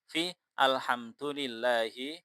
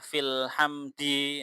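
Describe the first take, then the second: First: It is said apart from 'fi' and ends in 'u'. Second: It is joined to 'fi' and ends in 'i'. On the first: The quoted phrase is kept exactly as in the original text. The speaker calls it right. "Fi bukan alhamdi, tetapi fi alhamdulillahi" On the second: The quoted phrase is treated as ordinary grammar after the preposition. The speaker calls it wrong. "jangan dibaca uh, fil hamdi. Nah, ini kan nggak boleh"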